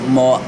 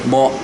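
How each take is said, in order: No difference in how they are said.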